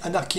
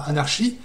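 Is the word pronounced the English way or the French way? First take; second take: English; French. First: The word is pronounced with English sounds. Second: The word is pronounced with French sounds. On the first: The speaker calls it right. "je prends la prononciation anglophone" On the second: The speaker calls it wrong. "non pas anarchie"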